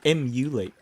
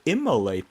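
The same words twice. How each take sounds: First: Says "emulate" with "myoo" in the middle; corrected word. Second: Says "immolate" with "mo" in the middle; mispronounced word. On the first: Gamer correcting the mistaken word, clearly saying "emulate". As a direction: correct it to "em-you-late". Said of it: "I mean, emulate them". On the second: Gamer showing own mispronunciation, saying "immolate" for emulate. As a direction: put "im-mo-late" where emulate belongs. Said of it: "I mispronounce words all the time". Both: Shown as a demonstration.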